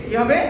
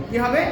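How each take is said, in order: Both takes have the same delivery.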